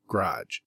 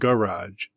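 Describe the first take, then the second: First: It is squeezed into one syllable, like 'grodge'. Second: It is said with two full syllables. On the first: The speaker calls it right. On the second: The speaker calls it wrong.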